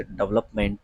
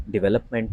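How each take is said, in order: First: "डेवलपमेंट" squashed to DUV-lup-ment; wrong pronunciation. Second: "डेवलपमेंट" as di-VEL-up-ment; correct pronunciation. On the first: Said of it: "जो गलत उच्चारण करते हैं". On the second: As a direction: clear "ve" in the second syllable of "डेवलपमेंट". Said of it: "इसका सही उच्चारण". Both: Shown as a demonstration.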